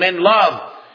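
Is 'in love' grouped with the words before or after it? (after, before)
before. It is grouped with the words before it. God chose us to be holy and blameless in love. "at the end of the verse"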